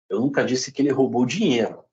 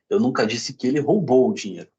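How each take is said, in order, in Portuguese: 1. A palavra 'dinheiro' tem o acento principal. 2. A palavra 'roubou' tem o acento principal. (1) "Pode ter roubado outra coisa" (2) "Pode ter pego emprestado, de repente"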